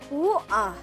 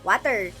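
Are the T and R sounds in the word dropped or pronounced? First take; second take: dropped; pronounced. First: The T and R sounds are dropped. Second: The T and R sounds are clearly pronounced. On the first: This is how people here say it. "Here, they say woo-ah" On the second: This is how people in the Philippines say it. "in Philippines, we say water"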